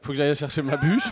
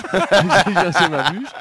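First: Said in the usual way. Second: Laughing. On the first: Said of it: "j'ai le droit, c'est Noël". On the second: Real, not acted. Repeats the line laughing, drawn out.

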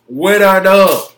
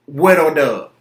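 First: With a dub slower and much louder, dub hit hard; louder, slower victory punchline; triumphant repeat. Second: Said in the usual way. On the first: Real, not acted. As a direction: hammer home With a dub.

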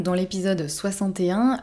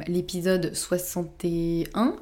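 First: Said in the usual way. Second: "soixante et un" drawn out slowly, rising at the end; unsure recall. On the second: Real, not acted. Host tries to remember an earlier episode's number, unsure recall. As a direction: search memory aloud, stretching "soixante et un" into a tentative rise.

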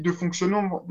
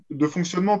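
First: "fonctionnement" slurred and cut short as "fonksio"; "fonctionnement" garbled, the nasal and ending swallowed; stumbled word. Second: "fonctionnement" said in full and clearly, as "fon-ksio-ne-ment"; "fonctionnement" carefully repeated with every syllable; clean correction. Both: Real, not acted.

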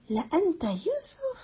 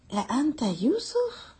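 First: "La anta Yusuf?" repeated much higher, pressing harder on "Yusuf"; the brothers press the question a second time; higher emphatic question. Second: Arabic question "La anta Yusuf?" intoned higher, with a rising end on "Yusuf"; the brothers first ask Yusuf in astonishment; questioning recitation. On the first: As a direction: push the repeated question up in pitch with more insistence. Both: Retold or imitated. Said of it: "emphasis upon emphasis".

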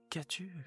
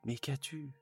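First: Much higher, rising panicked repeat; husband pleading as his wife cries; stammering husband. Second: Higher, worried stammer; alarmed husband asking his crying wife. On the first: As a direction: repeat it climbing up in alarm. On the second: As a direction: ask with alarm, stumbling. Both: Acted. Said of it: "Il bégaya".

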